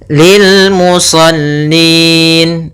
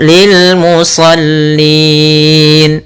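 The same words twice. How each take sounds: First: The long vowel is held for two counts. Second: The long vowel is held for four counts.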